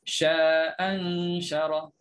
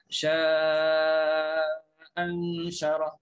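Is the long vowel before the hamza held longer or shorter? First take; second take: shorter; longer. First: The long vowel is held for two counts. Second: The long vowel is held for four counts. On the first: "yang pertama dua harakat" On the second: "Yang kedua empat harakat"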